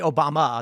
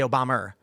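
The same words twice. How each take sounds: First: The name ends with a plain 'uh' vowel. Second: The name ends with an 'er' sound. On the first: "They don't say Obama" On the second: "They say Obama"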